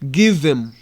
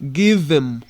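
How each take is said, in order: First: The words are reduced and run together. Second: The same.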